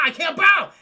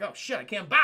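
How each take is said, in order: First: High, much louder desperate yell; panicked shout. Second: Said in the usual way. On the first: Retold or imitated. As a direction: cry out that you can't bow. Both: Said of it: "He's like".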